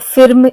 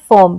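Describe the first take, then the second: First: The vowel is a short ih sound. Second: The vowel is a central er sound. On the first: The speaker calls it wrong. "ऐसे हम नहीं करते pronunciation" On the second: The speaker calls it right. "बल्कि हम कहते हैं"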